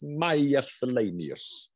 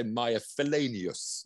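First: Maya Felanius drawn out slowly; "Maya Felanius" said at half pace, each name given room; careful name attempt. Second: Said in the usual way. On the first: Real, not acted. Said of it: "Apologies for my accent". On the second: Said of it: "I'll probably say".

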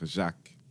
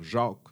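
First: "Jacques" with a short open front "a"; front-vowel "Jacques". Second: "Jacques" with a dark back vowel, like "Jâcques"; Quebec-style "Jacques". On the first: Speaker choosing their own French, open front-vowel "Jacques". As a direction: say "Jacques" with a clear plain "a". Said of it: "Je veux dire Jacques". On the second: Speaker rejecting the local French pronunciation, Quebec-style back-vowel "Jacques". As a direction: say "Jacques" as a broad "Jauque". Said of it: "Je veux pas dire Jacques". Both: Shown as a demonstration.

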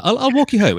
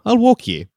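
First: High, loud mock Scottish brogue; re-read it as the hammy Scot; Scottish man. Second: High mock Scottish brogue; first read in a Scottish voice; Scottish man. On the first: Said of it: "she's doing that thing where she's like". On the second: First reading of line.

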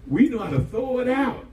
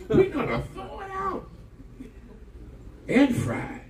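First: Said in the usual way. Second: High, laughing mimic of the excuse; laughing mock. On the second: Repeats line, laughing, high.

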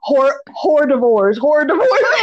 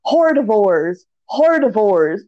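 First: "hors d'oeuvres" read as hor-dee-vorz, letter by letter; mispronounced hors d'oeuvres. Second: "Hordivores" said as hor-di-vores, every letter sounded; reading "hordivores" aloud like a new word; mispronounced hors d'oeuvres. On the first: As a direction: sound out "hors d'oeuvres" like hordivores. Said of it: "she's like". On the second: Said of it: "she keeps saying". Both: Retold or imitated.

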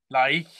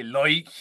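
First: Said in the usual way. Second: Irish-sounding "like", vowel as in "loike"; Irish accent. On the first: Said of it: "'cause I don't say". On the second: Shown as a demonstration. Showing co-host what an Irish speaker says, Irish accent. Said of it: "I don't exactly sound Irish".

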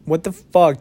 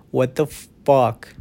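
First: A second, punchier what the fuck. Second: Slow, drawn-out what the fuck in disbelief. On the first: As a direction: blurt it out, amazed. Repeats his disbelief louder. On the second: Podcaster stunned by a musician's streaming numbers, slow disbelief. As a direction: let it sink in, slowly. Stunned at five million listeners. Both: Real, not acted.

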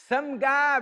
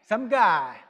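First: "Some guy" in a light British accent, a bit higher. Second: Said in the usual way. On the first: Shown as a demonstration. Preacher demos "Some guy" to the congregation, light British accent. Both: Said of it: "you gotta say it with a British accent".

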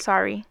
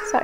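First: Said in the usual way. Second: High giggly sorry through a laugh; laughing apology. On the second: Real, not acted. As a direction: laugh while saying sorry.

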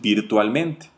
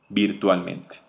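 First: Said in the usual way. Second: Virtualmente repeated softer and lower; softer, lower echo. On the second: Shown as a demonstration. Sales coach showing the power of voice, softly. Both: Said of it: "Y esta es la voz".

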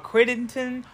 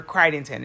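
First: Crittenden said as "CRID-en-ton", short i; first vowel of Crittenden as in "kit"; short I pronunciation. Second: Crittenden said as "CRY-den-ton", long i; first vowel of Crittenden as in "kite"; long I pronunciation. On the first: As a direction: say Crittenden with first syllable like "crit". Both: Shown as a demonstration. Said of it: "if I'm saying that wrong".

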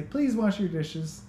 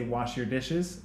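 First: "Please" said high and slow, sweetened; polite please, pitch up. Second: Said in the usual way. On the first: Shown as a demonstration. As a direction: lift the voice high on "Please wash your dishes". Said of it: "even the way I say that". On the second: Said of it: "I'm not being rude if I say".

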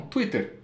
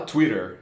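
First: Twitter as "tu-í-ter", with a hard Portuguese T; Brazilian-accented Twitter; Brazilian pronunciation. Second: Twitter with an American flapped T; English-accented Twitter; American pronunciation. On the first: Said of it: "eles falam Twitter". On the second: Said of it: "mas não fala Twitter". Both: Shown as a demonstration.

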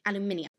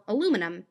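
First: "aluminium" in British style, al-yoo-MIN-ee-um; British accent on "aluminium", stressing MIN; other dialect. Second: Said in the usual way. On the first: Shown as a demonstration. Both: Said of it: "A dialect is the difference between".

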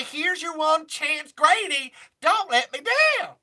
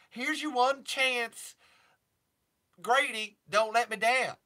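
First: Higher, louder, slow and emphatic; louder [name] take. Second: [name] impression, slow. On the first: Retold or imitated. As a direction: lean into it harder as [name]. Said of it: "I say". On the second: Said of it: "[name]-y things to say".

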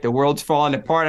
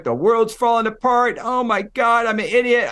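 First: Said in the usual way. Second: Mock road-rage yell, pitched higher; half-acted panicked yelling behind the wheel; retold yelling. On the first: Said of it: "I'm screaming". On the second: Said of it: "I'm screaming, I'm yelling".

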